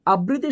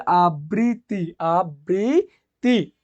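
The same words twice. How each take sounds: First: Said in the usual way. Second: আবৃত্তি very slow, broken into long syllables; teacher sounding out আবৃত্তি at a crawl; pronunciation demo. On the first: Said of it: "শব্দের উচ্চারণ কি হবে". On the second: Shown as a demonstration. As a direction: draw out every syllable of আবৃত্তি. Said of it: "আবৃত্তি শব্দের উচ্চারণ কি হবে".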